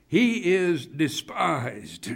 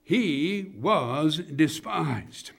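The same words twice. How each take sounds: First: "he is despised" said slowly, fall at the end; first statement. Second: "he was despised" slow, every word weighted; stressed repeat. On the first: Preacher first naming the point to the congregation, slow. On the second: Preacher stressing the repeated words to the congregation, slow and weighty. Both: Shown as a demonstration.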